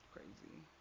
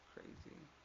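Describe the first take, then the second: First: Soft disbelief. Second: "Crazy" whispered with no voice at all. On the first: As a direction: murmur "Crazy" to yourself, still voiced. First soft take of crazy. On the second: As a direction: breathe "Crazy" out as a bare whisper. Second take whispered. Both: Retold or imitated.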